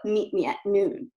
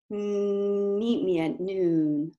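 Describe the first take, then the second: First: The voice sounds tight and strained from the throat. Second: The voice sounds smooth and resonant toward the front. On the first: The speaker calls it wrong. "That's a lot of strain in my throat" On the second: The speaker calls it right. "I can get a smoother voice quality"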